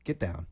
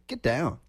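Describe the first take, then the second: First: It is said as a stern order to a dog. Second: It is said as a funky, soulful exclamation.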